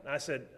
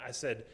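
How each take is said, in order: Both takes have the same delivery.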